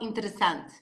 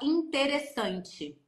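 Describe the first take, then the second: First: Vowels are reduced and the syllables run together. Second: Vowels are open and each syllable is separated. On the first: "Eles falam interessante" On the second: "a gente fala interessante"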